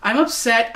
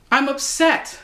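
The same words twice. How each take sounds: First: "upset" stressed with a falling close; corrected take, weight on "upset". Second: "I'm" pushed up high and leaned on; stress on I'm. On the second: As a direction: hit "I'm", then let "upset" fall. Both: Real, not acted. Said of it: "No, excuse me".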